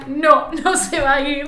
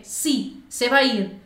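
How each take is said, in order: First: Louder, drawn-out mock refusal; laughing dismay. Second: Said in the usual way. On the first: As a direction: laugh through a dismayed change of mind. Reversal on seeing the price. (negación entre risas, alargada y fuerte)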